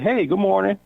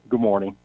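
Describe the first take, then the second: First: It is said in a warm, friendly way. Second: It is said in a dry, cold way.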